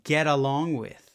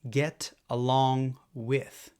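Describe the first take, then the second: First: The T is a quick tap linking the words. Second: The T is a clear, full T sound.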